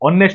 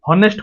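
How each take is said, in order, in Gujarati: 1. આ શબ્દ સ્વર થી શરૂ થાય છે, h નો અવાજ નથી. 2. આ શબ્દ સ્પષ્ટ h અવાજ થી શરૂ થાય છે. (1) "ଉଚ୍ଚାରଣ କଣ କରୁଛନ୍ତି ଅନେଷ୍ଟ ବୋଲି କହୁଛନ୍ତି" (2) "ହନେଷ୍ଟ ତ କହୁନାହାନ୍ତି ନା"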